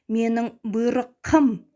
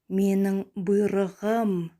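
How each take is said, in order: First: The consonant before the ending stays voiceless. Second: The consonant before the ending is voiced. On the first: The speaker calls it wrong. "Мы не можем сказать" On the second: The speaker calls it right. "Плавно, красиво"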